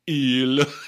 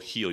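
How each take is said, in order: First: The word begins with a vowel, no h. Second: The word begins with an h sound. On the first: The speaker calls it right. "you'd go eel" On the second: The speaker calls it wrong. "you wouldn't go heel"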